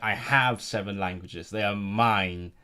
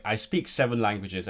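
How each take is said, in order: First: "have" leaned on, slow and proud; mock-proud, unhurried "have"; slow possessive stress on have. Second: Said in the usual way. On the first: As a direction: own it: "have" stretched slowly. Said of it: "and you're like". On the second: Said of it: "everyone else is like".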